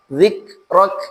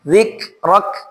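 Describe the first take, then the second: First: The final k is strong and pressed. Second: The same.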